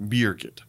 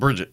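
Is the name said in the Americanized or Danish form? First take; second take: Danish; Americanized. First: The name is said in the Danish form. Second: The name is said in the Americanized form. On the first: The speaker calls it right. "How do you properly pronounce it?" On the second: The speaker calls it wrong. "just like many lazy Americans"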